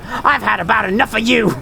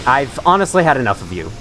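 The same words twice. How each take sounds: First: Put-on crazy old lady with a southern accent, pitched high; Marguerite. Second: Said in the usual way. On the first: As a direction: do a crazed southern old woman. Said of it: "I sound like Marguerite from Resident Evil seven". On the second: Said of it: "Except, you know, without the crazy".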